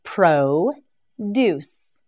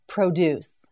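First: Pro-deuce split into two slow parts; produce, stretched and split in two; syllable by syllable. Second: Said in the usual way. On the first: Shown as a demonstration. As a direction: break Pro-deuce apart.

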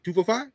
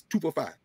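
First: "two four five" echoed with rising end; echoing shopkeeper's delivery. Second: "two four five" with falling end, imitated; imitating Korean shopkeeper. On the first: Retold or imitated. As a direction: lightly copy his way, checking the price. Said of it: "you just said that the way he said it". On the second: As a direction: lightly mimic a shopkeeper quoting a price. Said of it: "the way he said it".

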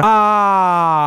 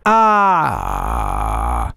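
First: Voice pushed out. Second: Deep, soft, held-in resonant ah; voice placed low. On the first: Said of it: "En vez de sacar demasiado la voz para afuera". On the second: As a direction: keep it low and inside. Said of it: "¿Notan?". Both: Shown as a demonstration.

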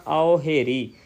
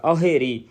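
First: ਔ ਹੇਰੀ as two distinct words; separated words. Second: ਔ ਹੇਰੀ run together as one word; joined reading. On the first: Teacher showing the main reading, ਔ ਹੇਰੀ said separately. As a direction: part ਔ from ਹੇਰੀ. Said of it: "ਵੱਖਰਾ ਵੱਖਰਾ ਪਾਠ ਉਚਾਰਨ ਕਰਨਾ". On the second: Teacher giving the secondary reading, ਔ ਹੇਰੀ joined. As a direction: glide from ਔ straight into ਹੇਰੀ. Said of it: "ਜਿਹੜਾ ਦੋ ਨੰਬਰ ਪਾਠ ਆ". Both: Shown as a demonstration.

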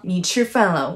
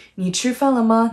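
First: Said in the usual way. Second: Brisk asking 你吃饭了吗; question with 吗. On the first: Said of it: "would mean you ate a meal". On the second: Shown as a demonstration. Teacher contrasting question with statement, asking. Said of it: "that would mean".

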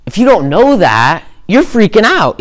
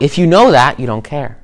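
First: Mock panic. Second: The one who knows, settled and unconcerned; calm unbothered. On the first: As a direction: voice shoots up high and loud in mock panic. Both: Shown as a demonstration.

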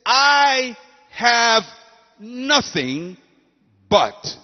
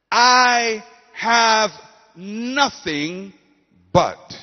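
First: I have ... nothing ... but, drawn out with pauses; loud I have, then a held pause before nothing; dramatic pause. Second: Preacher's repeated refrain; repeated with pauses. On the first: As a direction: deliver each word as its own beat. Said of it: "She says". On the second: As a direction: echo it slowly with gaps. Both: Shown as a demonstration.

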